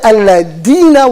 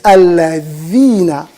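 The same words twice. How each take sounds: First: The middle consonant is a d sound. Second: The middle consonant is a th sound. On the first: The speaker calls it wrong. "al-ladina with a D, and that's also wrong" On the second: The speaker calls it right. "they can't pronounce the that"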